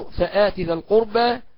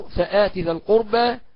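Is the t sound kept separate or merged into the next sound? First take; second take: separate; separate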